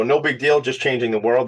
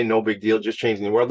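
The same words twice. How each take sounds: First: Tongue in cheek. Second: Said in the usual way. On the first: Shown as a demonstration. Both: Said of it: "That's tongue in cheek".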